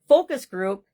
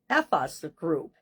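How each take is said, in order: First: The first word is said as plain 'focus'. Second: The first word sounds like a swear word.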